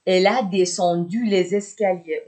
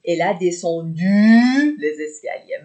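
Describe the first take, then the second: First: Said in the usual way. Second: "descendu" drawn out long and loud; stress on descendu. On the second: Shown as a demonstration. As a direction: stretch the end of "descendu", letting it rise. Teacher repeats example, stretching the verb.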